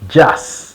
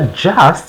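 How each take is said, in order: First: The final t sound is dropped. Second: The final t sound is clearly pronounced. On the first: The speaker calls it right. "uvuga just. T uhita uyikuramo" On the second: The speaker calls it wrong. "Ntabwo uvuga just"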